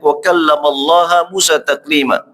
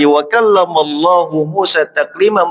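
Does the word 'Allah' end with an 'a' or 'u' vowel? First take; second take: a; u. First: The word Allah ends in an 'a' vowel. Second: The word Allah ends in a 'u' vowel. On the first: Moses spoke to God. The speaker calls it wrong. "mereka membacanya" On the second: God spoke to Moses. The speaker calls it right. "firman Allah tadi"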